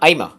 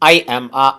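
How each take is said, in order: First: The words run together like one word. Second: Each word is said separately and fully.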